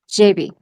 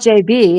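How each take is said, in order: First: The stress falls on the J. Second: The stress falls on the B. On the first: The speaker calls it right. "It's got the accent on the J" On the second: The speaker calls it wrong. "It's not J B"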